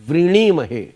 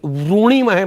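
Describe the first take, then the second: First: The first syllable is said with a 'ri' sound. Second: The first syllable is said with a 'ru' sound. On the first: The speaker calls it right. "रा को री कहते हैं" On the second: The speaker calls it wrong. "मत कहिएगा"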